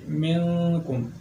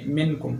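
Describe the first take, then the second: First: The n is hidden into a nasal sound. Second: The n is pronounced fully and clearly. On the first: The speaker calls it right. "बल्कि इख्फा करेंगे" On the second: The speaker calls it wrong. "इजहार नहीं करेंगे, ऐसे नहीं पढ़ेंगे"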